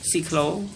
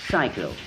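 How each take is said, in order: First: The stress is on the second syllable. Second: The stress is on the first syllable. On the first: This is how the word sounds in Khmer. "In the Khmer words, the stress is on the second syllable" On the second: This is how the word sounds in English. "In the English words, the stress is on the first syllable"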